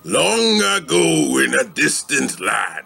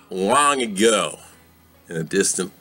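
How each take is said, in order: First: "Long ago" gets heavy emphasis, like Aku. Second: "Long ago" is said plainly, without heavy emphasis.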